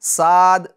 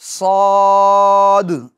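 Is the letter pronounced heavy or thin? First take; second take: thin; heavy. First: The letter is pronounced thin, tongue kept low. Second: The letter is pronounced heavy, tongue raised back. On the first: The speaker calls it wrong. "साद नहीं" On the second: The speaker calls it right. "पुर पढ़ेंगे, मोटा पढ़ेंगे"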